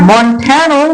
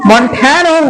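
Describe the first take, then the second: No difference in how they are said.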